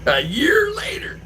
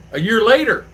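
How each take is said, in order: First: A year later as a hoarse, high, slow stage whisper; dramatic stage whisper. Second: Said in the usual way. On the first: Shown as a demonstration.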